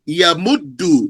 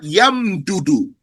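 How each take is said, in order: First: The two d sounds merge into one doubled d. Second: A vowel separates the two d sounds. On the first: The speaker calls it right. "And you say yamuddu" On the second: The speaker calls it wrong. "not yamdudu"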